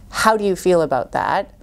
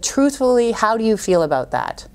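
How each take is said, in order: First: Said in the usual way. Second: "Truthfully" set out high, then the question falling; weighty "Truthfully," then a falling question; emphatic "Truthfully". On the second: Shown as a demonstration. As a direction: lead with a high, deliberate "Truthfully," and end downward.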